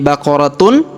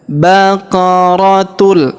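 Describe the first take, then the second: First: The word ends with a clear N sound. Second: The final nasal merges into an L sound. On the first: The speaker calls it wrong. "Bukan lagi baqaratun karena sudah menghilang" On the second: The speaker calls it right. "berubah menjadi baqaratul"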